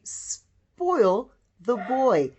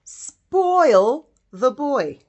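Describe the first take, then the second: First: Slow reading. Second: Put-on "Spoil the boy" very slowly, "Spoil" stressed and louder; slow emphatic reading. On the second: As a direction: stretch out "Spoil the boy", hitting "Spoil". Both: Shown as a demonstration. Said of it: "you would say".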